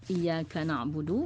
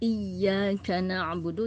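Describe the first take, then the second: First: The y sound is light, without emphasis. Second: The y sound is doubled and emphasized. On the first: The speaker calls it wrong. "berarti tidak ada penekanan di situ" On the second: The speaker calls it right. "itu kan beda"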